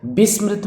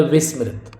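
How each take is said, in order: First: विस्मृत said "bismrit", higher pitch; mistaken b opening. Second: विस्मृत said "vismrit"; correct v opening. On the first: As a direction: start विस्मृत on b instead of v. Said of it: "ये विस्मृत हो गया". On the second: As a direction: start विस्मृत on a clear v. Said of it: "जबकि होता है". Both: Shown as a demonstration.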